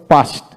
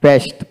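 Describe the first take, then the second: First: পাস্ট with open "aa", "paast"; British pronunciation. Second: পেস্ট with front "ae", "paest"; American pronunciation. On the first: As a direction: say পাস্ট with a long "ah". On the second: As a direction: say পেস্ট with the vowel of "pat". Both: Shown as a demonstration. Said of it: "আমেরিকানরা".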